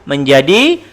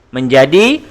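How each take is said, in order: No difference in how they are said.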